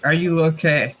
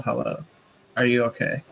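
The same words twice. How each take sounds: First: Louder call out. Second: A mild yell across the clearing; friendly call out. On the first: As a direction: repeat it higher and louder. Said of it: "I'm gonna repeat". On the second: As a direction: call out gently, barely raised. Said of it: "I'm gonna yell". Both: Acted.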